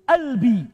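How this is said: The word starts with a glottal stop. "pakai apa? Hamzah"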